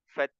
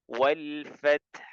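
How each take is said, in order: First: The final h is dropped; only t sounds. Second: A breathy t is followed by a final h. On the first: The speaker calls it wrong. "ha-nya nggak ada" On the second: The speaker calls it right. "hamaskan ta-nya, kemudian eee, bunyikan huruf ha-nya"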